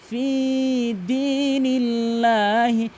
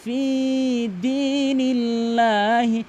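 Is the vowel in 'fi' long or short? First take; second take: long; long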